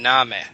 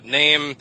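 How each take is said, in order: First: It ends with a weak schwa vowel after m. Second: It ends on the m sound, no final vowel. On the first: This is how it was said around 1300. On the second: This is the modern pronunciation.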